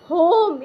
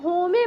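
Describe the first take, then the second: First: The word ends on the m sound. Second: The word ends with an added e vowel. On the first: The speaker calls it right. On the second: The speaker calls it wrong.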